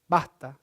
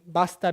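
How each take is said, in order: First: The s is aspirated and nearly disappears. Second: The s is fully pronounced.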